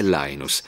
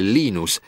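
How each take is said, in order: First: The name is said with an English pronunciation. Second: The name is said with a Finnish pronunciation. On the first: "quando parlo inglese è" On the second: "quando parlo finlandese è"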